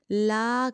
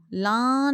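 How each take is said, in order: First: "لا" open, with no sound in the nose; an oral 'laa' on "لا"; clean la. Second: "لاں" drawn into the nose; a nasal vowel on "لاں", as in the error; nasalised la. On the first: Teacher correcting the children's error, clean la. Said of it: "لا کرنا ہے". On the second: Teacher warning pupils off the nasalised la. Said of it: "ناک میں نہیں آواز لے کے جانی". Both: Shown as a demonstration.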